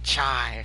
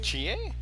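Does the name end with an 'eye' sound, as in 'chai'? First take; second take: yes; no. First: The name is said like 'chai', ending in 'eye'. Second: The name is said in the Japanese way. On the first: The speaker calls it wrong. "It's not chai" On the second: The speaker calls it right. "That's how Japanese is pronounced"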